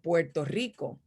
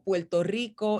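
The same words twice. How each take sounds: First: The r in Puerto sounds like an r. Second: The r in Puerto sounds like an l. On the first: "instead of" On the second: "the way we replace the R for the L"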